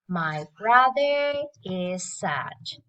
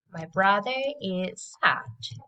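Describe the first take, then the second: First: Slow drill with final sounds clear; slow model. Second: Said in the usual way. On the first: Shown as a demonstration. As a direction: land the final d of sad. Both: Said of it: "bật âm đuôi lên nhé".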